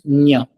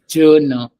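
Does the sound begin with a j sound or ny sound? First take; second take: ny; j. First: The sound is a palatal ny sound. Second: The sound starts with a j before the n. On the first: The speaker calls it right. "this word is actually pronounced as nya" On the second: The speaker calls it wrong. "It's not said as jna"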